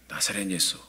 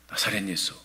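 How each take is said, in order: No difference in how they are said.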